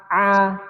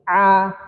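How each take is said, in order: First: The sound comes out through the mouth. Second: The same.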